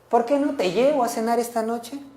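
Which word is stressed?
llevo. The emphasis falls on the word llevo. The listener should not go alone. "en vez de que vayas sola"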